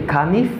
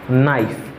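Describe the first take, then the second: First: A K sound is pronounced at the start. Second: No K sound is pronounced at the start. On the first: The speaker calls it wrong. "when you say kanif, ... it's wrong" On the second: The speaker calls it right. "just say knife ... the letter K in this word is not pronouncing"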